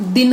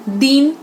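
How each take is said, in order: First: दिन with a quick short I; short vowel. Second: दीन with a long EE; long vowel. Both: Shown as a demonstration. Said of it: "मात्रा गलत लगा देते हैं".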